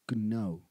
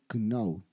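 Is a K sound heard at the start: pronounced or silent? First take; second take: pronounced; pronounced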